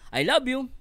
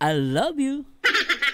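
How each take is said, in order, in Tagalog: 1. Flat ang tunog ng parirala, walang init. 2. Malambing at mapaglaro ang tunog ng parirala. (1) "Wala, wala lang" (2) "Pero pag"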